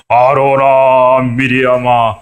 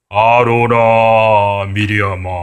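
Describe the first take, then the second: First: Very slow, louder divine summons; God summoning Aaron and Miriam to rebuke them, slow and louder; stern voice of God. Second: Very slow, drawn-out divine call; God calling Aaron and Miriam, slow and echoing. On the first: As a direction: call them out slowly and forcefully as an angry God. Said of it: "막 야단을 치기 시작을 하는 거예요". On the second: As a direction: call out the names slowly, like God from the cloud. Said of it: "하나님 목소리 같아요?". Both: Acted.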